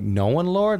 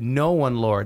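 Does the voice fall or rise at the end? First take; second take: rise; fall. First: The voice rises at the end, like a question. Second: The voice falls at the end, like a statement.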